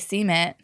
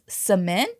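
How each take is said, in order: First: It is said the Southern, North Carolina way. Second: It is said the general American way.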